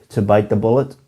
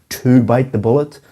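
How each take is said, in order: The two takes are said the same way.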